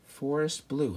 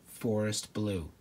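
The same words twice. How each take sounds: First: Forest Blue said slow and longing; dreamy, admiring. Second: Dreamy. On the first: Admiring the name of a place he'd love to live, dreamy. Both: Real, not acted. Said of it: "how beautiful".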